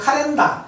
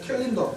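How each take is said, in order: First: It is said with a Japanese accent. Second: It is said with an English accent. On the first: "일본식으로는 카렌다" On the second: "영어로는 캘린더, 발음이 좋은지 모르겠네요"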